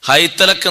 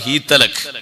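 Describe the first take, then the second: First: The first vowel is the diphthong ai. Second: The first vowel is a long ee. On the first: "ഹൈതലക് എന്നിടത്ത്" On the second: "വേറെ ഖിറാഅത്ത്"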